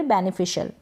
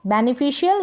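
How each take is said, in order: First: "बेनिफिशियल" ending in one syllable, shul; short shul ending. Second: "बेनिफिशियल" ending in shi-yal; full shi-yal ending. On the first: Teacher repeating second option, "बेनिफिशियल" with shul ending. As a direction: end "बेनिफिशियल" on shul, no glide. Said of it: "या फिर बेनिफिशियल". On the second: Teacher repeating first option, "बेनिफिशियल" with shi-yal ending. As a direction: give "बेनिफिशियल" its Y glide. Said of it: "बेनिफिशियल या फिर बेनिफिशियल". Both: Shown as a demonstration.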